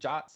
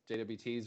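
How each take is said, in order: First: The term is said as a single word. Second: The term is spelled out letter by letter. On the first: "Some people call them J O Ts" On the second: "J W Ts or JSON Web Tokens"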